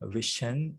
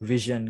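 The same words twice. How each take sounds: First: The middle sound is a voiceless sh. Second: The middle sound is a voiced zh. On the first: The speaker calls it wrong. "vision කියලා කියන්නේ නෙවෙයි" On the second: The speaker calls it right. "මෙතෙන්දී තියෙන්නේ ඇත්තටම voiced sound එකක්"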